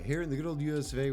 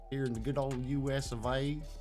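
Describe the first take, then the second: First: It is read in a plain, ordinary accent. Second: It is read in an exaggerated cowboy accent.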